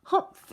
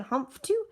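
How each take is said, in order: First: Short mock-yelled scoff; yelled humph. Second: Put-on young kangaroo. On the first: Sour kangaroo scoffs at Horton, mildly yelled. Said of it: "yelled a voice". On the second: Young kangaroo echoes from the pouch, lightly voiced child. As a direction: echo it as a little one, lightly voiced. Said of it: "the young kangaroo in her pouch said". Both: A narrator's reading.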